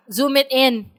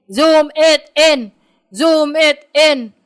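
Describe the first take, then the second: First: Said in the usual way. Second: "Zoom it in" loud, slow, word by word; emphatic repetition. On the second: Real, not acted. Co-host urging the other to enlarge the screen, slow and emphatic. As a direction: punch out each word of "Zoom it in", drawn out. Repeats the instruction with growing emphasis.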